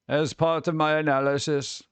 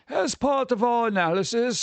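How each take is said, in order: First: It is read in his plain normal voice. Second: It is read in a put-on fancy voice.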